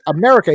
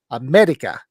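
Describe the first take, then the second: First: America with a clear R; correct America. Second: America with a D for the R; mispronounced America. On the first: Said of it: "he's trying to say". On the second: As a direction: imitate a foreigner saying "Amedica" for America. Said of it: "No, there's no D in America". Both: Retold or imitated.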